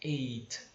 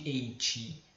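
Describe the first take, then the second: First: The final t is light, with no vowel after. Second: The final t is followed by an 'i' sound. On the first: The speaker calls it right. "Um pouquinho mais leve" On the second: The speaker calls it wrong. "como se tivesse um i no final"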